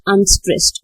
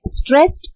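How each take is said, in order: First: "unstressed" dropped to normal pitch with a falling tune; falling, lighter "unstressed"; unstressed beat. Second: "stressed" pitched high with a rising tune; stressed beat. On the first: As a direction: let "unstressed" fall away as the weak beat. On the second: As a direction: lift "stressed" as the strong beat. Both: Shown as a demonstration. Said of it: "The syllable went like this".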